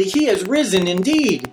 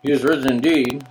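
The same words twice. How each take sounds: First: Emphatic, wholehearted "He is risen indeed". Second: Low, listless congregational reply; bored mumble. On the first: Church member answering "He is risen", emphatic. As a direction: declare "He is risen indeed" with conviction. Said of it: "answer emphatically". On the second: Congregation repeating back to the pastor, bored mumble. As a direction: drone it back without conviction. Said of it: "it's gonna sound all mumbled". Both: Shown as a demonstration.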